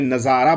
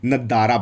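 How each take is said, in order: First: The middle consonant is a z sound. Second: The middle consonant is a d sound. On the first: "बहुत सी कंट्री में नज़ारा बोला जाता है" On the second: "वो जा नहीं बोलते, दा बोलते हैं।"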